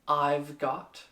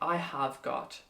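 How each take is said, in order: First: The words are contracted into two syllables. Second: Each word is said in full, unreduced. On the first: "the contracted" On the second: "you can say I have got, but it's very long"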